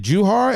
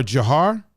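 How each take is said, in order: First: Juhar with an oo in the first syllable, joo-HAR; questioning Juhar, first syllable rhyming with shoe; checking a pronunciation. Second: Jahar with a short uh first syllable, juh-HAR; questioning Jahar, first vowel reduced to uh; alternative pronunciation. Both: Shown as a demonstration. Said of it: "Am I saying that right?".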